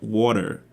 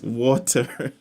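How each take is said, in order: First: The middle t sounds like a soft d. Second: The middle t is a clear t sound. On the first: "You say it wat water" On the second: "but there's no D. It's water"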